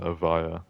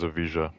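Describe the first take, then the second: First: The J is said as a Y sound. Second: The J is said as a J sound. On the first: This is the technically correct way. "it is technically pronounced uh, Avaya" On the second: This is the common way people say it. "most people still pronounce this as Evija"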